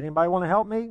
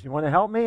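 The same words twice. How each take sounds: First: A higher, more eager call out to everyone; crowd pumped up. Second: An upbeat call to the crowd, lightly voiced; rallying the crowd. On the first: Retold or imitated. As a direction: push the crowd to join in. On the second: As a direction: start to rally the shoppers. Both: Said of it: "he kinda got the crowd going".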